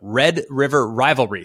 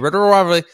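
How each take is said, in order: First: The phrase is said slowly and carefully. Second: The phrase is said quickly and runs together. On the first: The speaker calls it right. "I slow down drastically when I'm actually trying to say it" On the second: The speaker calls it wrong. "if I try to say it quickly"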